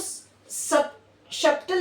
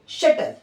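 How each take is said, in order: First: The b sound is pronounced before the t. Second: The b sound is silent before the t. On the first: The speaker calls it wrong. "आप इसको सब शटल नहीं बनेंगे" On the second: The speaker calls it right. "T से just पहले अगर बी आएगा तो हम बी को प्रोनाउंस नहीं करेंगे"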